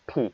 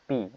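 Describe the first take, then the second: First: The p is said with a strong puff of air. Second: The p is said without a puff of air. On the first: The speaker calls it right. "ফ sound হয়ে যাবে ফি" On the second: The speaker calls it wrong. "আমরা এই পি কে আগে পড়তাম পি"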